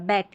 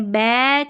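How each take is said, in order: First: The vowel is kept short. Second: The vowel is drawn out long. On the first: The speaker calls it right. "यहाँ पर ए की ध्वनि छोटी है" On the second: The speaker calls it wrong. "हमने बैक नहीं बोला"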